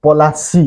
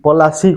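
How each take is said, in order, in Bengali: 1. p আর l-এর মাঝে একটি পূর্ণ স্বরধ্বনি শোনা যায়। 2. p আর l-এর মাঝে একটি পূর্ণ স্বরধ্বনি শোনা যায়।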